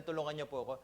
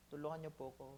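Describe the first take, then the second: First: Said in the usual way. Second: Soft, broken-sounding plea for help; desperate plea. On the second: Retold or imitated. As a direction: beg for help in a small voice. (mahinang desperadong pakiusap) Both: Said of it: "hindi naman niya po sinabi na".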